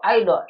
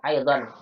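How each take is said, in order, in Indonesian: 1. Kata ini berakhir dengan vokal, tanpa n. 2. Kata ini berakhir dengan bunyi n yang jelas. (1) "Kita sebagian membaca dengan aido" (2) "Betul aidon bilang aidon"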